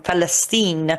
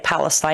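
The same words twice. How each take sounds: First: The name is said with a local, Arabic-style pronunciation. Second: The name is said with a westernized, English pronunciation. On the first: This is the name as used among the speaker's own people. "when talking to he- her people, she says, I'm from Palestine" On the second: This is the westernized form of the name. "She doesn't say Palestine. The Palestine pronunciation was the westernized"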